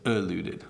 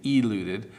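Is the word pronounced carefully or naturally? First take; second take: naturally; carefully. First: The first vowel is relaxed and naturally reduced. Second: The first vowel is forced and clearly pronounced. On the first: "but it's" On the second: "if I force the pronunciation, I might say"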